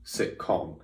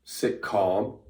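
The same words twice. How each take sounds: First: "sitcom" with a short o in com; short vowel. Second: "sitcom" said as "sit calm", long ah; drawn-out vowel. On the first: Showing two different words in own accent, "sitcom" with a short o. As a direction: keep the last syllable of "sitcom" short, as in comedy. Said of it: "'cause I say sitcom". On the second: Showing two different words in own accent, "sitcom" with a long ah. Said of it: "Those are two different words". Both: Shown as a demonstration.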